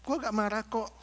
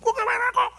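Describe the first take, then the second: First: Said in the usual way. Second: Mock angry denial, much higher; high-pitched denial. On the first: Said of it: "Tapi ngomongnya suara tinggi". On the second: Angry person insisting he is not angry, high-pitched. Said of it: "ngomongnya suara tinggi".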